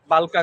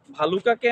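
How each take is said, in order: First: বালকা with plain b and the u dropped; Gazipur dialect. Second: Said in the usual way. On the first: Shown as a demonstration. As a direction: say বালকা as two syllables, "bal-ka". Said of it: "গাজীপুরের আঞ্চলিক ভাষায়". (গাজীপুরের উচ্চারণে বালকা, ভ-এর বদলে ব) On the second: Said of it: "Gazipur আঞ্চলিক ভাষায়".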